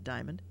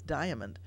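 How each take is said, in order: First: The middle a vowel is dropped or blurred. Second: The middle a vowel is clearly pronounced. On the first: The speaker calls it wrong. "It's not Diamond" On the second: The speaker calls it right. "You hear the A in Diamond"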